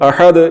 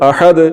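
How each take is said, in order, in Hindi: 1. अंतिम d में हल्की गूंजती उछाल के साथ खत्म होता है। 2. अंतिम d में हल्की गूंजती उछाल के साथ खत्म होता है।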